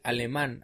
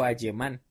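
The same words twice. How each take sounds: First: Said in the usual way. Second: "alemán" said "ayemán", L as Y; "alemán" with a Y-sound for its L; mispronounced L. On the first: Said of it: "en lugar de decir al". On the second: Retold or imitated. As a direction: imitate the slip on "alemán". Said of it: "adecuadamente dijo".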